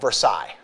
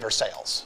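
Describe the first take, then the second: First: It is said the French way. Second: It is said the local Missouri way. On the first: This is the original French name. "there's a place called Versailles" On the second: This is how the locals say it. "but they say Versailles"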